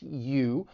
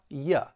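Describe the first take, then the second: First: It is stressed with a full 'oo' vowel. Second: It is unstressed with a reduced schwa vowel. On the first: "Both are accepted when it's stressed" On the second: "When it's unstressed and we say it with the schwa"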